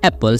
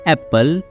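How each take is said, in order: First: The middle p sound is short, single. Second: The middle p sound is held long, doubled. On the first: The speaker calls it right. "केवल एक प की sound आएगी" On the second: The speaker calls it wrong. "बहुत सारे लोग इससे wrong pronunciation करते हैं"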